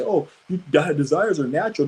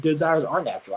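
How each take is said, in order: First: Mocking quote. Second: Said in the usual way. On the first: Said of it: "these dumbass people out here say".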